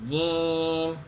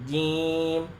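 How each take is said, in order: The two takes are said the same way.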